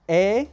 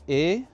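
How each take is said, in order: First: The vowel is open and short. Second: The vowel is closed and a bit long. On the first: "La E abierta" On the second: "la E cerrada y un poquito larga"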